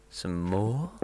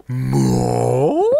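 First: Said in the usual way. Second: Loud rising "More?" in a strange voice; overacted shouted "More?"; hammed-up shout. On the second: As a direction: bellow the word like a bad actor. Movie quote mock shout.

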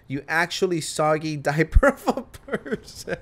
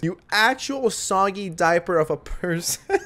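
First: Reading the insult while cracking up; can't get through it without laughing. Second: Slow, relishing delivery of "You actual soggy diaper of a person"; savoring the line. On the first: Real, not acted. Commentator reads a viewer's insult, laughing through it. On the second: Shown as a demonstration. Commentator repeats the insult to steal it, slow and relishing. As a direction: taste every word of "soggy diaper" like a prized insult. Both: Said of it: "I'm stealing this".

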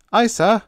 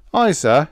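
First: High, loud puzzled acknowledgement; obey with bewilderment in your voice. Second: High, loud Cockney chirp; cheerful Cockney. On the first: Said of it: "Dick Todd was puzzled, but said". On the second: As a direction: answer as a cheery Cockney steward. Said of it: "voice of our Cockney steward". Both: A narrator's reading.

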